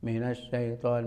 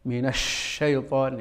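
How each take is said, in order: First: The sh is soft and lazy, without pressure. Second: The sh is blown hard from the whole mouth. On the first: "Kayak orang ya malas gitu ya" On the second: "seakan-akan angin dari sepenuh mulut"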